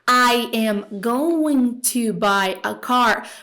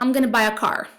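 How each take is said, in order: First: Each word is said fully and separately. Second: The words are reduced and run together. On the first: "Bem Google Tradutor" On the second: "unir sons de palavras"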